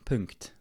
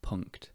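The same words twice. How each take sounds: First: The name is pronounced with a Swiss German accent. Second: The name is pronounced with an English accent. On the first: "I think it's a Swiss company, so they might pronounce it more like Punkt" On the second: "because I'm speaking English, I'll say Punkt"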